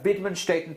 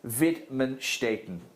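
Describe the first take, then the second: First: The word is said at normal conversational speed. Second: The word is said slowly and deliberately.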